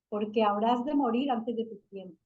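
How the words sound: It is read as a statement.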